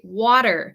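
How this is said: American accent, the T sounds like a D. "I say water ... my T's usually sound more like the letter D"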